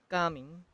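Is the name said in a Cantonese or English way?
Cantonese. The name is said with Cantonese pronunciation. The speaker calls it right. "Cantonese pronunciation too"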